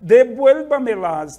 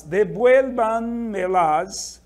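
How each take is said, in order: First: Devuélvamelas louder, stress on VUEL; teacher stresses the syllable; model pronunciation. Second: Devuélvanmelas slow, stress on VUEL, rising; slow teaching repeat; model pronunciation. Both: Shown as a demonstration. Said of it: "Olha a tônica, vuel".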